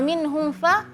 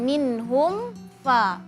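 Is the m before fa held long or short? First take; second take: short; long. First: The m sound is cut short before fa. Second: The m sound is held long before fa. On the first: The speaker calls it wrong. "mimnya nggak jelas" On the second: The speaker calls it right. "kasih durasi mim"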